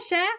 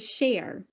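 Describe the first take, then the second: First: The word ends without an r sound. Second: The word ends with an r sound. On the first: The speaker calls it right. "that's how it's pronounced here" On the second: The speaker calls it wrong. "it is not pronounced like share"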